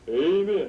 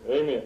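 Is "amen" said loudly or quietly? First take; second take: loudly; quietly. First: It is said loudly and fervently. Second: It is said softly, like Mister Carlton.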